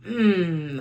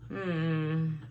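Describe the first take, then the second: First: It sounds eager and positive. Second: It sounds reluctant and negative.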